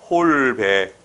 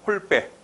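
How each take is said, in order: First: The first syllable is held long; plain b sound. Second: The first syllable is cut short; tense b sound. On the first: The speaker calls it wrong. "이거를 길게 읽으면 여기서 된 소리가 안 나와" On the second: The speaker calls it right. "요걸 짧게 끊어가면"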